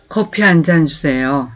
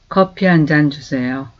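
Both takes have the same delivery.

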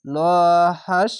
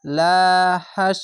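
First: হাস with a full, heavy ল before it; heavy letter. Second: লা said light and thin; thin letter. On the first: Teacher shows the heavy reading above the letter, thick sound. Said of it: "মোটা অক্ষর হবে". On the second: Teacher shows the thin reading below the letter, light sound. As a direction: keep the লা of লা হাস thin and light. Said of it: "পাতলা করে হবে". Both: Shown as a demonstration.

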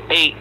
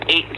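Both takes have the same delivery.

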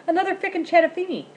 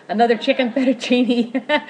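First: "fickin'" said for chicken through a laugh, much higher; tongue-tied giggle on "fickin'"; laughing slip. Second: "chicken" said properly with ch, louder, laughing; laughing correction of "chicken"; corrected, still laughing. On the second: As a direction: fix the slip, "chicken" clearly through giggles. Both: Real, not acted.

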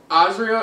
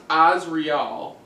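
First: Said in the usual way. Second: "Azriel" slowly, emphasis on its first syllable; stress on first syllable. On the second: Shown as a demonstration. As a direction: sound out "Azriel" carefully, leaning on the opening "Az". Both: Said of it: "With the emphasis on the first syllable".

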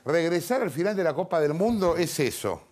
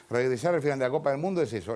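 First: Measured emphasis through "Regresar al final de la Copa del Mundo es eso"; emphatic quote reading. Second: Fast repeat that leads straight on; quicker re-read. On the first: Host quotes a militant article, deliberate emphatic reading. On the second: Host repeats the article's line, brisk run-through. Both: Retold or imitated.

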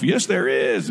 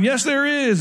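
First: Said in the usual way. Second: A light, higher cheery elf chirp; Buddy the Elf. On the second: Retold or imitated. Pharisees yelling back at the Sadducees, lightly voiced cheery elf. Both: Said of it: "sounded like Buddy the Elf".

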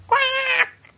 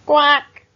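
First: Very high squawking quack, loud; a sudden high cartoon squawk; startled quack. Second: Loud, blunt quack; duck quack. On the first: Bugs lands in toys. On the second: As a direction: bark out one loud quack. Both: A narrator's reading.

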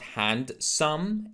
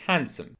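First: HANDSOME as slow "hand-sum", D sounded; mispronounced handsome. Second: HANDSOME as "HAN-sum", silent D; correct handsome. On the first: Teacher showing the mistake, handsome with a D. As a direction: split "handsome" into hand and some. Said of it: "There is no de". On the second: Teacher modelling handsome for learners, D left silent. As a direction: drop the D in "handsome", weak ending. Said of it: "it's actually handsome". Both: Shown as a demonstration.

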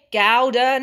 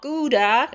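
First: Gouda said "GOW-da", first syllable like cow; British Gouda. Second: Gouda said "GOO-da", first syllable like goo; the rejected "GOO-duh", with a rising tune; American Gouda. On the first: Vlogger getting viewers to repeat her "GOW-da". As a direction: lead the viewers in "GOW-duh". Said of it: "Everybody say it with me". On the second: Vlogger contrasting the American "GOO-da" she rejects. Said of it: "not Gouda". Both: Shown as a demonstration.

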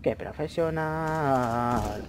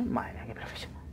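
First: Very slow, stretched out; drawn-out sarcasm. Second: Soft mocking whisper; sarcastic whisper. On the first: Mocking his own shots, very slow drawn-out sarcasm. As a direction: drag the words out mockingly. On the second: Mocking his own shots, sarcastic whisper. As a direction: whisper the praise with irony. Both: Real, not acted.

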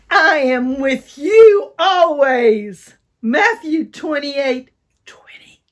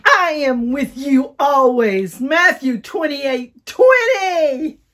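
First: Loud, higher, slow excited shout. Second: Loud, higher, slow shouted verse; like we mean it. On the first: Teacher leading an excited recital. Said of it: "really get excited". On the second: Teacher urging children to mean the verse. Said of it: "Let's do it like we mean it". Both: Shown as a demonstration.

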